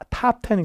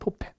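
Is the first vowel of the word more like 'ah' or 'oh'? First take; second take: ah; oh. First: The first vowel sounds like 'ah'. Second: The first vowel sounds like 'oh'. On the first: This newer form follows the American style. "요즘은 뭐라 그래요? 타" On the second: This older form follows the British style. "우리 톱텐이라고 그랬잖아요"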